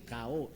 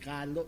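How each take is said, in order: First: The word has no L sound in the middle. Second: The word has an L sound in the middle. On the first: This is how Cebu speakers say it. "they don't pronounce the letter L" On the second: This is the standard form. "instead of saying kalo"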